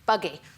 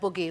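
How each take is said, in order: First: It is said in a standard southern British accent. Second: It is said in a northern English accent. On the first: "if I was receive pronunciation British, that would be, be buggy" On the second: "But we say like boogie"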